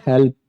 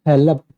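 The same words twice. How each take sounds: First: हेल्प said as one syllable, help, with no vowel between l and p; correct pronunciation. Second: हेल्प said as two syllables, he-lap, with an extra vowel before p; wrong pronunciation. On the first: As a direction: keep हेल्प tight as a single syllable, help. (हेल्प को एक ही अक्षर में, "हेल्प", बिना अतिरिक्त स्वर के) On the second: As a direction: split हेल्प into he-lap, the way a learner wrongly says it. (हेल्प को "हेलप" बोलना, बीच में अतिरिक्त स्वर के साथ) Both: Shown as a demonstration. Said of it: "आप इसको हेल्प बोल दे रहे हो तो ये गलत है".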